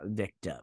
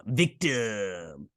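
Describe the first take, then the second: First: Said in the usual way. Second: Drawn-out, hammed-up VICTIM; mock-menacing, lingering delivery of "victim"; theatrical villain. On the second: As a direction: stretch "victim" out like a stage villain. Repeats the word theatrically.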